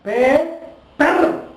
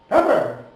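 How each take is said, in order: First: The two syllables are separated by a gap. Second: The syllables run together with no gap. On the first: The speaker calls it wrong. "It is not pay per" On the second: The speaker calls it right. "only two consonants are quickly pronounced"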